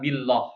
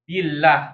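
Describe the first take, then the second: First: The L is heavy and thick. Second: The L is light and thin. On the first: The speaker calls it wrong. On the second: The speaker calls it right. "tarqiq ya, tipis ya"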